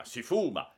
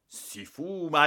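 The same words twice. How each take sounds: First: Rising anger at si fuma, not yet full; first outburst, holding back a little; mild thunder. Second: Si fuma louder, higher and slow; thundering. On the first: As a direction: director discovering smoking, rising anger. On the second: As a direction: hammer out si fuma in rage. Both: Acted. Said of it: "tonò".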